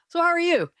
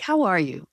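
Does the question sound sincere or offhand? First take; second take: offhand; sincere. First: It is asked in a casual, offhand tone. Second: It is asked in a sincere, caring tone.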